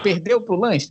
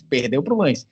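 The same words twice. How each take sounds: First: "perdeu pro Lens" pitched higher, as a question; rhetorical question. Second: Said in the usual way. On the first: Real, not acted. Pundit conceding a defeat to the host, rhetorical question on "perdeu pro Lens".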